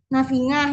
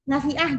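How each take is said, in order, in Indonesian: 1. Konsonan di tengah itu bunyi 'ng'. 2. Konsonan di tengah itu bunyi tenggorokan.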